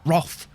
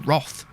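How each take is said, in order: First: The vowel is an 'o' sound. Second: The vowel is an 'o' sound.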